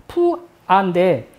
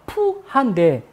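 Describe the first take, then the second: First: The name begins with a strongly aspirated p. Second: The same.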